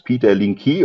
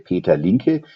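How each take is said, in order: First: The name is pronounced the English way. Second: The name is pronounced the German way. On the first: "In English, it's" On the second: "as is pronounced it in German, you would say"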